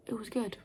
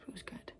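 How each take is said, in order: First: Said in the usual way. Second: Whispered aside. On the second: Real, not acted. Whispered repeat of verdict.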